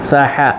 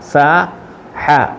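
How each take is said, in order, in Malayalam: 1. ഈ അക്ഷരങ്ങൾ വേഗത്തിൽ, ഇടവേളയില്ലാതെ ചേർത്താണ് പറയുന്നത്. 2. ഈ അക്ഷരങ്ങൾ സാവധാനത്തിൽ, അവയ്ക്കിടയിൽ ഒരു ഇടവേളയോടെയാണ് പറയുന്നത്. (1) "രണ്ടും കൂടെ ചേർത്ത് പറയുമ്പോൾ കുറച്ചുകൂടെ സ്പീഡിൽ പറയും" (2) "നിർത്തി പറഞ്ഞപ്പം"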